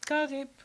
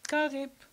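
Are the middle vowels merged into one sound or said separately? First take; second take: merged; merged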